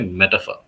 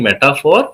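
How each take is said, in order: First: It is said with a lighter, neutral delivery. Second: It is said with a heavier, accented delivery. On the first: The speaker calls it right. "we can say metaphor" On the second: The speaker calls it wrong. "instead of saying metaphor"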